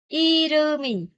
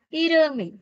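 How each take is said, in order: First: The word is said with full force. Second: The word is said lightly, with reduced force.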